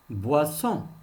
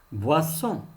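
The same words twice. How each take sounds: The two takes are said the same way.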